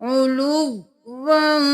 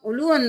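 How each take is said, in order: First: The w sound is held and doubled. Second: The w sound is short and single. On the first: The speaker calls it right. "दो बार वाव को पढ़ना है" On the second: The speaker calls it wrong. "उलुवन नहीं करना"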